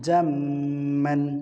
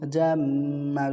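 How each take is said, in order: First: The word ends with an n sound. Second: The word ends in a drawn-out long vowel. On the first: The reader continues without stopping. "যদি আমরা তানবিন বলি তাহলে কি হবে জাম্মান" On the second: The reader stops at this word. "যদি আমরা অক্ফ করি তাহলে মধ্যে আওয়াজ হবে জাম্মা তাহলে একালিপ টান দিতে হবে"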